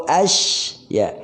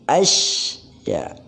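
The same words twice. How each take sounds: The two takes are said the same way.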